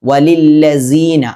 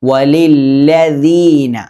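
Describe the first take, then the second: First: The middle consonant is a z sound. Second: The middle consonant is a soft th sound. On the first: The speaker calls it wrong. "പല ആളുകളും സീ എന്നാണ് ഉച്ചരിക്കുക... തെറ്റാണത്" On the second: The speaker calls it right. "നാവിൻ്റെ അറ്റം മേലെ മുൻപല്ലിൽ മുട്ടിക്കുക"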